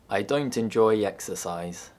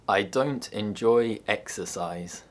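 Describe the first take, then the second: First: A y sound links 'enjoy' to 'exercise'. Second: The words are said separately without a y sound.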